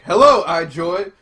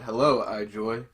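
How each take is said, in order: First: It is yelled loudly. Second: It is said at a normal volume.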